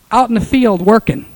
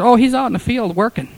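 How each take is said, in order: First: Out in the field working, louder and pressed for wonder; emphatic repeat. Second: Said in the usual way. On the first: Shown as a demonstration. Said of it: "That's two days later". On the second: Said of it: "She said".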